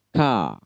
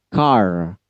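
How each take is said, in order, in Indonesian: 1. Kata ini berakhir di vokal, tanpa bunyi r. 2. Kata ini berakhir dengan bunyi r yang jelas. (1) "kalau British ya tentunya R-nya silent" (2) "Di dalam American R-nya wajib jelas"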